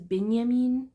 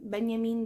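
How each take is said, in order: First: The first syllable is said with an 'i' vowel. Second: The first syllable is said with an 'e' vowel. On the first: The speaker calls it wrong. "My mom pronounced it as Binyamin" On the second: The speaker calls it right. "is pronounced B E N"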